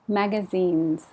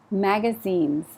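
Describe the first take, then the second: No difference in how they are said.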